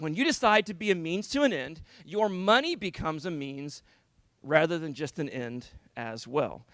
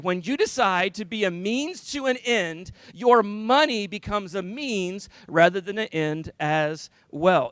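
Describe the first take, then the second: First: It is said in a plain, ordinary tone. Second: It is said in a happy, cheerful voice.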